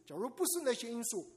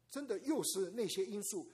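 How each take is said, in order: First: “不”字重读、下降; 强调不字. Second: “又”字重读、下降; 强调又字. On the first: (重读“不”，语调下降) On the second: (重读“又”，语调下降) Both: Shown as a demonstration. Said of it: "teaching parents a contrast".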